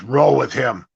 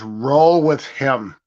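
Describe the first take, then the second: First: Said in the usual way. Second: "Roll with him" said slowly and flatly, as a lightly voiced order; a coach's unhurried command, only lightly imitated; curt coach order. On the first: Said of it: "He goes". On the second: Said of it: "all of a sudden he goes".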